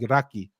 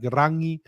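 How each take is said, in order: First: The middle consonant is a k sound. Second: The middle consonant is an ng sound. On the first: This is the South Island dialect. "the South substitute it for K like Raki" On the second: This is the North Island dialect. "The North pronounce N G like Rangi"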